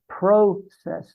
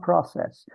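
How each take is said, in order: First: "process" with a long O, PRO-cess. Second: "process" with a short O, PROSS-ess. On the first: Telling the interviewer how members said it, long-O "process". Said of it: "we always said process". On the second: Correcting the interviewer's pronunciation, short-O "process". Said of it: "not process". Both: Shown as a demonstration.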